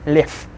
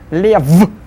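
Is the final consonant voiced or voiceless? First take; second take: voiceless; voiced. First: The final consonant is voiceless. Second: The final consonant is voiced.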